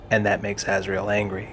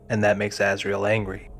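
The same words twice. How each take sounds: The two takes are said the same way.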